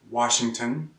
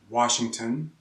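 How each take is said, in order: No difference in how they are said.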